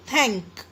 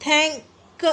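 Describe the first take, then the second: First: Said in the usual way. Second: "थैंक" split, a gap before a separate "क"; broken into pieces. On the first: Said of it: "simple". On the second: Shown as a demonstration. Teacher showing another wrong way, "थैंक" in two pieces. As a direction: say "थैं", pause, then a detached "क" for "थैंक". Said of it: "ऐसे भी नहीं".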